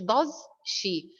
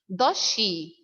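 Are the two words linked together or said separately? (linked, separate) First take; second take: separate; linked. First: The two words are said separately. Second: The two words blend together smoothly. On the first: The speaker calls it wrong. "ما بقولش does she" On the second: The speaker calls it right. "Like الإدغام in Arabic"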